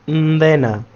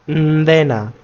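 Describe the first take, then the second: No difference in how they are said.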